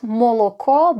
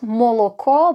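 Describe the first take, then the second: First: The unstressed vowels are pronounced as O. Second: The same.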